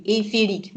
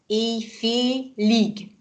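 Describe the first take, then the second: First: Said in the usual way. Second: "Éjfélig" drawn out syllable by syllable; teacher's dictation-slow "Éjfélig". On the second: Shown as a demonstration. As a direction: sound out "Éjfélig" very slowly. Teacher sounds out word after spelling.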